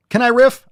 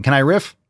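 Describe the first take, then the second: First: Can I riff? pushed much higher and louder; exasperated loud plea. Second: Said in the usual way. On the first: Real, not acted. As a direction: beg to rant, voice jumping up. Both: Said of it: "I'm just ranting".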